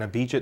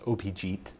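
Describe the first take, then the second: First: The name is said with an American pronunciation. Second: The name is said with a Bengali pronunciation. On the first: "That's the American pronunciation of the of the name" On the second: "It's actually pronounced Opijit in Bengali"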